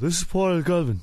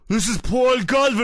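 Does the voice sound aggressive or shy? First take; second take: shy; aggressive. First: The voice sounds timid and shy. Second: The voice sounds forceful and aggressive. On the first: "Too shy, too shy" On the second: "I don't want to sound too aggressive"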